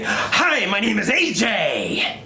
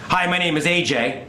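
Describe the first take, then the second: First: It is said with greatly exaggerated energy. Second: It is said with normal, moderate energy. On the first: "You have to do it ten times bigger" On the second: "you hear the audio"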